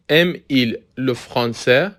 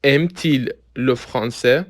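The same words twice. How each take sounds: First: "aime-il" said slowly with no t sound between aime and il; without linking t. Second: "aime-t-il" said slowly with a t sound between aime and il; with linking t. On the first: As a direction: run the m of "aime-il" straight into il, no t. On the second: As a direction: put a clear t before il in "aime-t-il". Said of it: "به تلفظ دقت کنید". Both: Shown as a demonstration.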